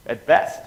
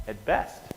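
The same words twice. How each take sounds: First: "At best" punched loud with rising "best"; emphatic. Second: Said in the usual way. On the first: Shown as a demonstration. To the class, a loud emphatic "At best". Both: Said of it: "repeated for emphasis".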